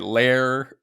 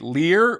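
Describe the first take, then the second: First: The vowel sounds like 'air'. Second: The vowel sounds like 'ear'. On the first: "or do you like it Lair" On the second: "Do you like it Lear"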